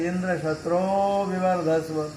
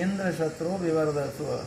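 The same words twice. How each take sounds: First: One vowel is drawn out and held long. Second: The vowels are said at normal short length. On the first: "उसको उन्होंने दीर्घ कर दिया" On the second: "एक आहुति से कह रहे थे"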